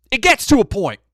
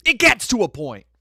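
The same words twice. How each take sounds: First: Emphatic. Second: Emphatic repeat. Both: Real, not acted.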